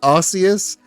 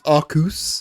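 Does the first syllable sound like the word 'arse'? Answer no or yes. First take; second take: yes; no. First: The first syllable sounds like the word arse. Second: The first syllable does not sound like arse. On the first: "that's got the word arse in it" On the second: "for a very very short period, it was"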